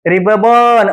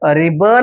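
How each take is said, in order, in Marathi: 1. "b" चा आवाज दोनदा उच्चारला जातो. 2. "b" चा आवाज एकदाच उच्चारला जातो. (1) "असं वाचाल नाही" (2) "अशा पद्धतीने वाचायचं आहे"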